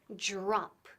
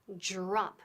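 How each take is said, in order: First: The first sound is close to an English J. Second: The first sound is close to an English J.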